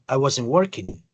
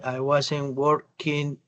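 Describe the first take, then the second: First: The three words run together as one sound. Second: Each word is read separately, with hesitation. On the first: The speaker calls it right. "prácticamente constituyen un, un solo sonido" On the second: The speaker calls it wrong. "literalmente está leyendo palabra tras palabra, no está uniendo el sonido de las palabras"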